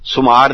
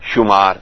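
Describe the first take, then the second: First: The word begins with a plain s sound. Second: The word begins with an sh sound. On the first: The speaker calls it wrong. "ਸੁਮਾਰ ਨਹੀਂ ਆਖਣਾ" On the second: The speaker calls it right. "ਦੇਖੋ ਪੈਰ ਚ ਬਿੰਦੀ ਹੈ ਨੀ ਸੱਸੇ ਦੇ"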